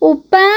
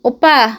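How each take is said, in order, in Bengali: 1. এটা মিষ্টি, আদুরে সুরে বলা হয়েছে। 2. এটা একটু রেগে, রুক্ষ সুরে বলা হয়েছে। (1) "খুব সুন্দর করে ডাকে" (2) "একটু রেগে রেগে"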